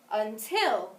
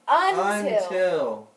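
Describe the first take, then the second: First: The stress is on the second syllable. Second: The stress is on the first syllable. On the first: The speaker calls it right. "try the accent on the second syllable instead" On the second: The speaker calls it wrong. "the way we have it coded"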